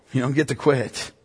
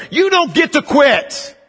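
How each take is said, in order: First: Quiet restatement. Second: High, slow, forceful command; militant preaching. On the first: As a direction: restate it calmly after the climax. Quiet repeat after militant climax. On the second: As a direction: hammer it home to the congregation. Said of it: "That's a little more militant". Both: Real, not acted.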